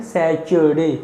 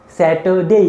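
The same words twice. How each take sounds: First: सैटरडे said wrongly with a च sound, "sechurde"; teacher demonstrating the common mistake; mispronounced. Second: सैटरडे said with a clean ट, "saterde"; teacher giving the right सैटरडे; correct pronunciation. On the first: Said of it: "mispronounce करते हुए सैटरडे". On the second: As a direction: say सैटरडे with a crisp t. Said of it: "बोलो, सैटरडे". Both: Shown as a demonstration.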